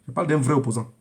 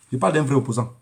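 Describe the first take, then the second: No difference in how they are said.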